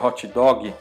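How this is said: It is said with a Portuguese accent. "em português a gente falaria"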